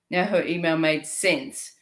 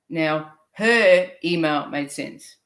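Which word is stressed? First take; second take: sense; her. First: The stress falls on the word sense. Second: The stress falls on the word her.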